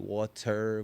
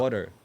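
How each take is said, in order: First: The t in the middle is a crisp t. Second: The t in the middle is a soft flap. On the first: "they pronounce the T's like T" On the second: "Americans will say"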